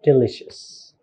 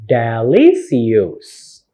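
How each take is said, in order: First: "delicious" as di-LISH-us; correct "delicious". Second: "delicious" as deh-lee-see-yoos; slow, mispronounced "delicious", every letter sounded; wrong spelling pronunciation. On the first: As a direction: say "delicious" with a sh sound. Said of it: "but delicious". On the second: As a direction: drag out "delicious" with an s, not sh. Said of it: "It's not delicious". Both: Shown as a demonstration.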